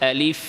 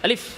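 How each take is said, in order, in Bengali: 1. শব্দটি মসৃণভাবে বলা হয়, আওয়াজ ও বাতাস চলতে থাকে। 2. শব্দটি দ্রুত, হঠাৎ ধাক্কা দিয়ে বলা হয়। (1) "স্বাভাবিক আলিফ বলেন" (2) "আলিফ আলিফ তাড়াতাড়ি করে"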